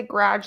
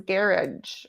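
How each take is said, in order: First: Said in the usual way. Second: Garage said as GARE-idge; English-style garage. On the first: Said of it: "she doesn't say garage". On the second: Retold or imitated. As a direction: stress the first syllable of garage, ending like "ridge". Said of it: "she says garage or garage".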